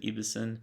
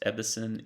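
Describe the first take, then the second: First: Ebbesen with a long E, EE-bess-en; alternative pronunciation. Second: Ebbesen with a short E, as in ebb; pronunciation guess. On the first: Unsure of a creator's last name, second guess with long E. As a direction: say Ebbesen starting EE, as in eve. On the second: Unsure of a creator's last name, first guess with short E. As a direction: say Ebbesen starting EB, short open vowel. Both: Shown as a demonstration. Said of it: "don't know if the last name is pronounced".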